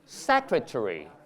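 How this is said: The -ary ending is weak and reduced. "British English"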